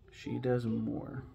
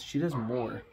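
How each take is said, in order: First: She does more, said slowly with weight on does; slow stress on does. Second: Said in the usual way. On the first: Shown as a demonstration. Rereading the credit to viewers, slow stress on does. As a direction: lean into does and drag it out slowly.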